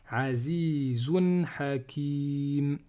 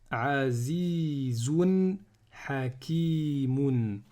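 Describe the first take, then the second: First: The last word ends bare on the m sound. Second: The last word ends with an -un sound. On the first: The reciter stops on this word. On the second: The recitation continues without stopping.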